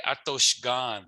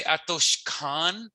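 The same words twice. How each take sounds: First: Atoshgan with a voiced G; clear G. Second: Atoshkan with a clear hard K; Atoshkan, crisp K sound. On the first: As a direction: say Atoshgan with a full G. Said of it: "You could also say Atoshgan". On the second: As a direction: say Atoshkan with a full K. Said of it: "you could say Atoshkan". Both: Shown as a demonstration.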